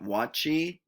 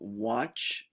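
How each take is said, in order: First: An extra vowel is added after the ch. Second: The word ends cleanly on the ch sound. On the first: The speaker calls it wrong. "not watchy" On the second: The speaker calls it right. "We have watch"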